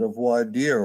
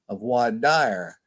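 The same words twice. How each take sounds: First: It is said with a standard, French-like pronunciation. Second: It is said with a Southern Alabama pronunciation.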